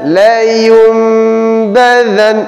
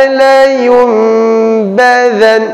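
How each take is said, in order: No difference in how they are said.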